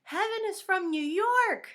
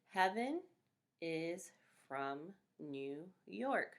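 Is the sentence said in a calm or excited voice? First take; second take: excited; calm. First: It is said loudly with excited energy. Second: It is said calmly at normal loudness. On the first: It is an exclamation. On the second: It is an ordinary statement.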